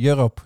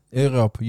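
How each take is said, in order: First: "Europe" said in English, starting with a "y" sound; "Europe" with the English "yu" opening; anglicised "Europe"; English pronunciation. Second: "Europe" said the Dutch way, starting with "eu" as in "Europa"; "Europe" with a Dutch "eu" vowel, no English "y" sound; Dutch-style "Europe"; Dutch pronunciation. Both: Shown as a demonstration. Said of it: "hoe spreek je dat in het Nederlands uit".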